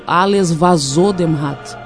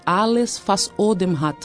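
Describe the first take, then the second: First: The words 'was Odem' blur into 'vazou dem'. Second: The words 'was Odem' are kept separate. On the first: The speaker calls it wrong. "a gente acabava falando Alles vazou dem Rat" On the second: The speaker calls it right. "ele começava com Alles was Odem hat"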